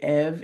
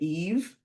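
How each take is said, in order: First: The vowel is short, like in 'bed'. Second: The vowel is long, like in 'see'. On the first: The speaker calls it wrong. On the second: The speaker calls it right.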